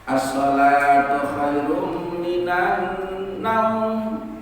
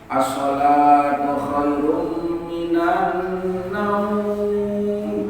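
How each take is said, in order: First: The vowel in the last word is kept short. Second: The vowel in the last word is drawn out long. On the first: It is read as ordinary Arabic speech. "Diharapkan pendek ya" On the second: It follows the tajwid rule for Quran reading. "panjang apa pendek? Panjang"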